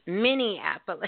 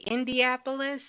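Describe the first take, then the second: First: "Minneapolis" said firmly with a laugh as the fix; corrected city name. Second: "Indianapolis?" said as a questioning echo of the mistake; wrong city name. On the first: Real, not acted. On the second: Retold or imitated. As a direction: repeat "Indianapolis?" back as a query. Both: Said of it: "What did I say?".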